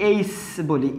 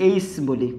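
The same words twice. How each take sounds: No difference in how they are said.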